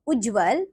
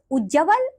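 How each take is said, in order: First: उज्जवल with "jv" run together; correct उज्ज्वल. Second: उज्जवल with an extra vowel before "val"; mispronounced उज्जवल. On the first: Teacher giving children the right form, correctly pronounced. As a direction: say उज्जवल carefully as "ujjval". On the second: Teacher showing children a wrong form, mispronounced. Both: Shown as a demonstration. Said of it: "नीचे कुछ अशुद्ध शब्द".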